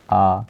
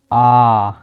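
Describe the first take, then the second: First: आ kept brief; short vowel. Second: आ held out long; long vowel. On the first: Teacher lists short vowels, आ said short. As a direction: clip आ to a single beat. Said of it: "यानी कम समय लगे". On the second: Teacher gives long vowel examples, drawn-out आ. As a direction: sustain आ for two beats. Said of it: "इससे थोड़ा सा ज़्यादा समय लगे". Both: Shown as a demonstration.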